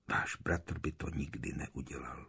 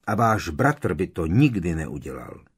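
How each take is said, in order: First: Whispered, low echo of a remembered line; tichá ozvěna v mysli. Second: Said in the usual way. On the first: A narrator's reading. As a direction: whisper it as a thought replaying in your head. Words echo in Harry's thoughts. (šeptaná vzpomínka na vlastní slova)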